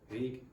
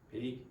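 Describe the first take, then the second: Both takes have the same delivery.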